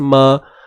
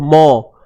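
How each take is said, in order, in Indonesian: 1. Suku kata m itu tipis, bunyinya seperti ma. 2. Suku kata m itu tebal, bunyinya seperti mo. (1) "Pastikan bunyinya ma" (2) "jangan tebalkan mim tu"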